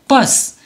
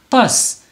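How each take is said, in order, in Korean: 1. 이 단어는 한 음절로 발음해요. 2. 이 단어는 한 음절로 발음해요.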